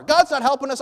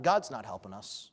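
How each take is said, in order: First: Much higher, louder cry of blame; shouted blame. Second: A low, soft blaming aside; blaming God. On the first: King shouts his blame to the city, loud and bitter. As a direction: hurl "God's not helping us" from the wall. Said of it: "He says it from the wall where everyone can hear". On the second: King blames God under his breath, low bitter grumble. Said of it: "he blames God". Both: Acted.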